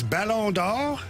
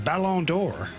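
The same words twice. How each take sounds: First: It is said with a French pronunciation. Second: It is said with an American English pronunciation. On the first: The speaker calls it right. "The real way is" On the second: The speaker calls it wrong. "E S P N calls it the"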